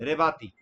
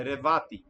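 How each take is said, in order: Both takes have the same delivery.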